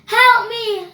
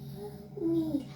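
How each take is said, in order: First: It is said loudly. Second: It is said quietly.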